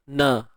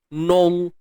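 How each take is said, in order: First: The vowel is open, sounding like 'a'. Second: The vowel is rounded, sounding like 'o'. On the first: The speaker calls it right. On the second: The speaker calls it wrong.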